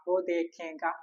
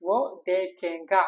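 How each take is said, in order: First: Said in the usual way. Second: വോ ദേഖേങ്ക said slowly and carefully, syllable by syllable; slow model phrase. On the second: Shown as a demonstration. Teacher showing students the Hindi for he will see, slow. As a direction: lay out വോ ദേഖേങ്ക slowly for the class. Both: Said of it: "നമ്മൾ മറ്റൊരാളെ കുറിച്ച് അവൻ കാണും".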